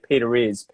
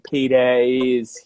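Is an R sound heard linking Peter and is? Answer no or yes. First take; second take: yes; no. First: An R sound links the two words. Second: No R sound links the two words. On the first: The speaker calls it right. "I'll say Peter is" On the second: The speaker calls it wrong. "Instead of saying Peter is here"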